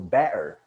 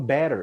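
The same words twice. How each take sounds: First: The middle t is swallowed, Cockney style. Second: The middle t is clearly pronounced. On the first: "eu falo better" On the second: "eu não falo better"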